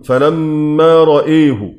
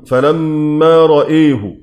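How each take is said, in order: First: Only the hamza vowel is tilted toward e. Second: The same.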